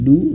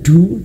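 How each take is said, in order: First: The d is released plainly without extra air. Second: The d is released with a puff of air. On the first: The speaker calls it right. "biasa saja" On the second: The speaker calls it wrong. "jangan sampai e, mengeluarkan angin"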